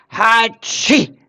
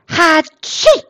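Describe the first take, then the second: First: Sneeze. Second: A big booming Hatschi sneeze, pitched up; loud sneeze. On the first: Sneeze from the cave. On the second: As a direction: sneeze it out loud like a sick boar. Eberhard sneezes in his cave. (lautes Niesen) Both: Acted.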